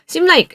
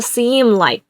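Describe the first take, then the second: First: The vowel in seem is short. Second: The vowel in seem is held long. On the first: The speaker calls it wrong. "seem like 아니에요" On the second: The speaker calls it right. "길게 꼭 하셔야 돼요"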